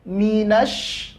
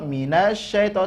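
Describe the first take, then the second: First: The sh sound is doubled and pressed firmly. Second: The sh sound is light, without extra pressure. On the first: The speaker calls it right. "tekan, ada penekanan suara" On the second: The speaker calls it wrong. "Jangan minasyaita minasyaita"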